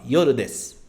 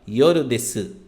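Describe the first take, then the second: First: The final u is dropped, ending in s. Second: The final u is clearly pronounced. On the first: The speaker calls it right. "o des" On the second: The speaker calls it wrong. "Você não fala yoru desu"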